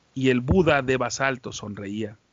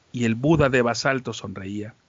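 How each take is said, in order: The two takes are said the same way.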